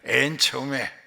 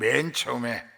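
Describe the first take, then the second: First: It is said in a Jeolla regional accent. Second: It is said in a standard Seoul accent. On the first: "전라도 말로 하면은" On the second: "서울 말로 하면"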